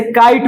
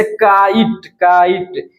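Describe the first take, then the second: First: Said in the usual way. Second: "काइट" split slowly into का and ईट; slow teacher's breakdown of "काइट" as का-ईट; sounded-out word. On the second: Shown as a demonstration. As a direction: stretch "काइट" in two parts, का-ईट, to show the opening क. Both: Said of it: "क का pronunciation आता है".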